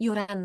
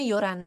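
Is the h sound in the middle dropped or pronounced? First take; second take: dropped; dropped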